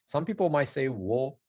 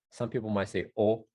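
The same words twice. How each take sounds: First: "wo" said with a clear W glide; w sounded. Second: "o" said as a pure vowel without the W; w dropped. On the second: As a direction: drop the W, just "o". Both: Shown as a demonstration. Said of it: "how much you stress".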